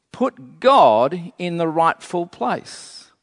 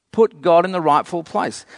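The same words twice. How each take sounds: First: "God" drawn out, the whole phrase slow; slow stress on God. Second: Said in the usual way. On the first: Real, not acted. Preacher exhorting the congregation, slow with "God" stretched out. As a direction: lean long on "God", taking the phrase slowly. Preacher repeats his exhortation slowly, then quicker.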